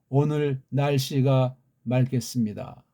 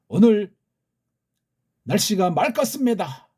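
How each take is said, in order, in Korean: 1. 평평하고 표준적인 서울 뉴스 앵커 말투를 씁니다. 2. 생동감 있는 북한 방송 말투를 씁니다. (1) "아나운서들이 그 뉴스 같은 걸 때 보세요" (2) "북한 애들 보세요. ... 생동감이 있잖아요 말이"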